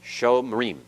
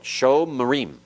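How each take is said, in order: The two takes are said the same way.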